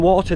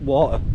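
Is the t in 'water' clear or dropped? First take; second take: clear; dropped. First: The t in the middle is clearly pronounced. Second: The t in the middle is dropped. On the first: "sometimes catch me pronouncing my T's for water" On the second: "most of the time it's water. Water. Don't pronounce my T's"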